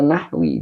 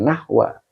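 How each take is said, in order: First: The word ends with an 'i' vowel. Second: The word ends with an 'a' vowel. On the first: The speaker calls it right. "dibaca nahwi" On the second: The speaker calls it wrong. "jangan nahwa"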